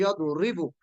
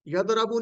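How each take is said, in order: First: यदरिबु with a clear i under रा, slow; यदरिबु the correct way; correct vowel. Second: यदरबु with an a sound after द; यदरबु the incorrect way; wrong vowel. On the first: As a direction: say यदरिबु, i-vowel after र, drawn out. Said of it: "रा के नीचे जेर". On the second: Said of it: "यदरबु नहीं कहना". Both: Shown as a demonstration.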